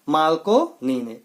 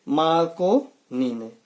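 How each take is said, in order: First: Slow repeated drill answer. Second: Slow, drawn-out drill answer. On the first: Teacher repeating the quiz answer slowly. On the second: Teacher answering his own quiz question slowly. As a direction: spell the answer out slowly for students. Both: Shown as a demonstration. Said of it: "radio की खोज किसने की?".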